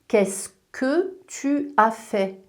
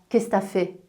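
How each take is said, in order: First: Every syllable of the phrase is pronounced in full. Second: Part of the phrase is dropped, shortened to t'as. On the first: The speaker calls it right. "On devrait dire" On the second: The speaker calls it wrong. "et pas"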